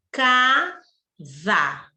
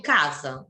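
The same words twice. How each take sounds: First: CASA drawn out as caa, za; slow, by syllables. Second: Said in the usual way. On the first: Shown as a demonstration. Teacher asking class to fala devagar, CASA said slowly in two beats. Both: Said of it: "Fala devagar".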